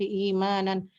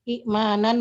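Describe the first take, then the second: First: The first vowel is long with no glottal stop. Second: A glottal stop follows the short first vowel. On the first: "diganti dengan huruf mat ya" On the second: "hamzah kedua yang sukun"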